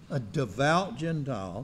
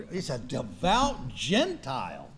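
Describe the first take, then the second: First: Devout lifted with a rising end; questioning repeat. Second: Devout drawn out low and slow, falling; slow stressed phrase. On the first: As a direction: wonder aloud at devout. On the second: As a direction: lean slowly on devout. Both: Real, not acted. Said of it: "repeated for emphasis".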